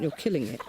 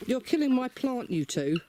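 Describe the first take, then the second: First: Said in the usual way. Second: High-pitched protest, "killing" stretched high; exasperated outcry. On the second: Real, not acted. Scolding hens digging plant.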